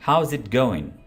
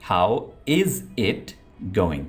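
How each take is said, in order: First: The words run together as one smooth unit. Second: Each word is said separately with small breaks. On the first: The speaker calls it right. "अब इसको अंग्रेज ने कैसे बोला" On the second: The speaker calls it wrong. "आमतौर पर यह sentence हम कैसे बोलेंगे"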